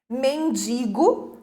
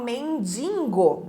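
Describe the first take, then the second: First: There is no n sound before the g. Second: An extra n sound comes before the g. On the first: The speaker calls it right. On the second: The speaker calls it wrong.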